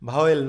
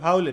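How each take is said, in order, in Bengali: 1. শব্দটি দুটি আলাদা সিলেবলে বলা হয়। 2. শব্দটি একটি গড়ানো সিলেবলে বলা হয়। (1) "ভাওয়েল নয়" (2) "আসলে ভাউল এটার উচ্চারণ"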